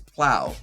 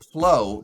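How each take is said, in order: First: The vowel rhymes with cow. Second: The vowel rhymes with slow. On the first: The speaker calls it right. "but it's plow, like snow plow" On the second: The speaker calls it wrong. "the word slow and the word glow. Why is it not plow"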